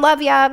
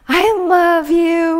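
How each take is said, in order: First: It sounds casual and insincere. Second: It sounds warm and sincere.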